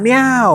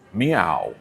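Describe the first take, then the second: First: It is a Tom from Parks impression. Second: It is a Ron Swanson impression.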